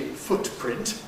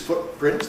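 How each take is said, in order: First: The t is said fully and carefully. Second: The t is formed but its release is silent. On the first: "that's very fussy, uh, old-fashioned and careful" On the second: "alveolar where you can't hear the release"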